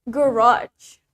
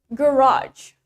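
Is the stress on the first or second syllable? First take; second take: second; second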